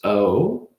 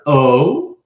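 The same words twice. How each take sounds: First: It is said more quietly. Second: It is said louder.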